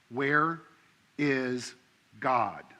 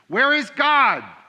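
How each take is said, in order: First: It is said sternly at normal loudness. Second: It is said sternest, with the loudest voice.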